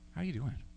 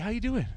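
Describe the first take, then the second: First: It sounds warm, sincere and caring. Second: It sounds quick, casual and offhand. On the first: The asker genuinely wants to know. The speaker calls it right. "Here's another way" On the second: The asker is only being polite in passing. The speaker calls it wrong. "Not like this is one example of how you could ask someone how they're doing"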